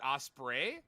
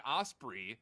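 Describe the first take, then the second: First: OSPREY said as "OSS-pray"; common pronunciation. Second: OSPREY said as "OSS-pree"; own pronunciation. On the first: [name] shows what everyone else says, osprey as "OSS-pray". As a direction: end OSPREY in a "pray" sound. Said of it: "everyone says it osprey". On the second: [name] shows his way of saying osprey, as "OSS-pree". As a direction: end OSPREY in a "pree" sound. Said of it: "apparently everyone says it osprey". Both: Shown as a demonstration.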